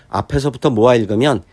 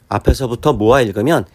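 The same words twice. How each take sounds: No difference in how they are said.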